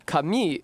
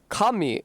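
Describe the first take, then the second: First: The pitch starts low and rises. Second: The pitch starts high and falls. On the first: It means paper. "kami is paper ... low-high in the second word" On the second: It means god. "kami is God ... high-low in the first word"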